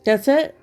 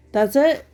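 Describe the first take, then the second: No difference in how they are said.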